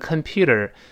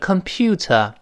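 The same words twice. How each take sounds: First: It is said with an American accent. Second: It is said with a British accent. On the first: "在美式发音读成computer" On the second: "在英式发音是computer"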